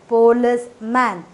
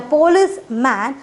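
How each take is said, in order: First: "policeman" broken into syllables with a pause; teacher syllabifying "policeman"; split into syllables. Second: Said in the usual way. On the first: Shown as a demonstration. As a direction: tap out each syllable of "policeman". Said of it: "divided into two syllables". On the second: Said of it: "we have divided policeman".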